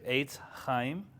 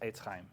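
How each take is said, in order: First: The first vowel is drawn out and stressed. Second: The first vowel is short and quick. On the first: "I'm overemphasizing the eights sound" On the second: "most of the time it's going to be just eitz chaim"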